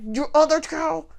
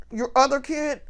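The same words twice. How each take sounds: First: Put-on low, hushed "Your other child?" said under the breath; hushed aside. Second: Put-on softer "Your other kid?" as a quick undertone; hushed nudge. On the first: Stepmother-in-law nudging her husband mid-speech, hushed. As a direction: murmur it so only he hears. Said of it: "she said it just low enough that I couldn't hear her". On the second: Stepmother-in-law prompting her husband about his son, hushed. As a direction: mutter it sideways to him. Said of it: "he noticed her nudge him and be like".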